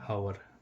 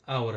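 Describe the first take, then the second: First: The word begins with an audible h sound. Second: The word begins directly with a vowel sound. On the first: The speaker calls it wrong. "हावर नहीं आवर हमें इसको बोलना है" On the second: The speaker calls it right. "एच हमारा silent होता है"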